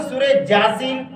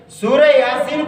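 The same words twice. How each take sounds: First: "جاسین" with j replacing y; imitated error, hard j opening "جاسین"; mispronunciation. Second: "یاسین" opening on y; correct pronunciation. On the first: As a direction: say "Jaa-seen" for "جاسین". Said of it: "بعض لوگ کہتے ہیں". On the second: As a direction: say "Yaa-seen" for "یاسین". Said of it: "کو بعض لوگ کہتے ہیں". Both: Shown as a demonstration.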